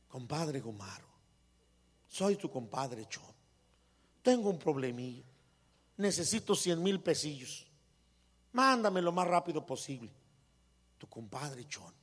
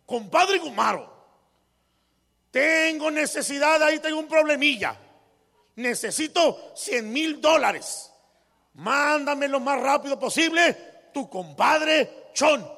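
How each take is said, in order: First: Much softer and lower, unhurried; gentle polite letter. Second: Loud, high and pushy, slowing at the end; rude demanding letter. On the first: Wife reading compadre Chon's letter to calm her husband, soft and gentle. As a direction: read the same letter kindly and humbly. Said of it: "era la misma carta". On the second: Rich man reading compadre Chon's letter as an insult, loud and pushy. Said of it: "así hablaba ya el señor". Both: Retold or imitated.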